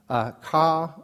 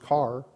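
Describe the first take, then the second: First: It is said with a New Jersey accent, no r. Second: It is said in a general accent with r.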